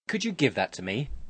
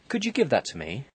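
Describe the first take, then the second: First: It sounds like a demand. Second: It sounds like a polite question.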